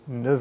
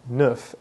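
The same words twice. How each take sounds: First: The word ends with a V sound. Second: The word ends with an F sound. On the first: "Its F sound changes to a V sound" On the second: "ends with an F"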